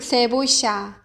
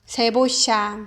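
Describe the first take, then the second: First: The double L sounds like sh. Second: The same.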